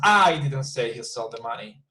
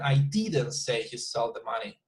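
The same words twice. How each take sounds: First: The stress falls on the word I. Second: The stress falls on the word didn't. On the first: Someone else said it. "my intention would be that I was not the person who said that" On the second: Nobody said it at all. "To emphasize that that he didn't, that I didn't say that"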